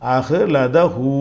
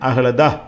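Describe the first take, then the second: First: The word ends with a stretched 'hu' sound. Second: The word ends cut short without 'hu'. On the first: The reading continues into the next verse. "அப்படியே தொடர்ச்சியாக போனால் அப்படி படிக்கணும்" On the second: The reading stops at the end of the verse. "இஹ்ல முடிக்கணும்"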